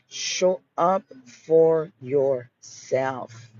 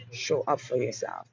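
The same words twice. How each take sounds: First: Very slow, stretched, every word leaned on; drawn-out repeat. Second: Dropped to a soft, intimate close; softer repeat. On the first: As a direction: draw it out to make it land. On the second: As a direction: say it quietly, almost to herself. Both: Shown as a demonstration.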